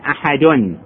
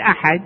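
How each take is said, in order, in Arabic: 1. تنتهي الكلمة بصوت التنوين -un. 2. تنتهي الكلمة بحرف ساكن بلا تنوين. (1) "هذه أحد عليها تنوين أساسا" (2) "لما نوقف نقول أحد نحط سكون"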